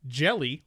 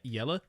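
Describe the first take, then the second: First: The name begins with a J sound. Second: The name begins with a Y sound. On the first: This is how the channel owner says it. "That's how he pronounced it" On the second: This is how it is said in another language. "in a different accent, like a different language"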